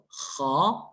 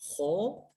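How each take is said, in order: First: The vowel after the consonant sounds like open 'ah'. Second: The vowel after the consonant sounds like rounded 'oh'. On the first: The speaker calls it right. "It's kha" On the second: The speaker calls it wrong. "It's not ho. That's incorrect"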